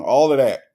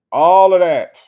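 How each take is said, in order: First: Said in the usual way. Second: Much louder, higher repeat; loud emphatic agreement. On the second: Real, not acted. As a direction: punch it louder the second time.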